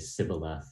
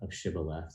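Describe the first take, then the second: First: The word begins with an 's' sound. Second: The word begins with an 'sh' sound. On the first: The speaker is an outsider. The speaker calls it wrong. "would say sibboleth" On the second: The speaker is one of the group. The speaker calls it right. "the sh of shibboleth"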